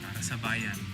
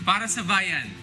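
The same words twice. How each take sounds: First: It sounds disappointed and let down. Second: It sounds happy and cheerful.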